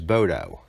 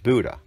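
First: The word ends in a long 'oh' vowel. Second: The word ends in a short 'uh' vowel. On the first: The speaker calls it wrong. "I always pronounce stop one as Bodo" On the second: The speaker calls it right. "but it's pronounced as Buddha"

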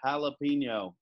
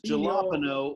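First: It is said in an American way. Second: It is said in a non-American way.

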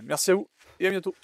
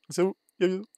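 First: It is said in a silly put-on voice. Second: It is said in his normal voice.

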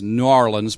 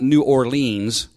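First: The name is squeezed into two syllables. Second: The name is said with all its syllables. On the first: This is how locals say it. The speaker calls it wrong. "they call it Narlins down there" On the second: This is the standard outside pronunciation. The speaker calls it right. "Because I say it right"

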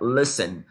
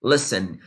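The two takes are said the same way.

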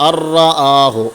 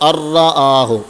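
No difference in how they are said.

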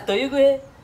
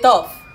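First: Every letter of the ending is sounded out. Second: The ending is said with an f sound. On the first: The speaker calls it right. "It's pronounced as Toyuguhe" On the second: The speaker calls it wrong. "It's not tough. We are not calling F"

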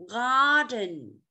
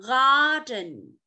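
Both takes have the same delivery.

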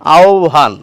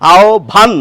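First: The lips stay slightly apart for the bh sound. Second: The lips close fully for a clear bh sound. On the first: The speaker calls it right. "এই ভ উচ্চারণ করতে গেলে ঠোঁটটা খানিকটা ফাঁকা থাকবে।" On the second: The speaker calls it wrong. "আহ্বান নয়"

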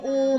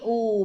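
First: The syllable is said with a mid tone. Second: The syllable is said with a low tone. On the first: "ออูอู" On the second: "ไม้เอกอู่"

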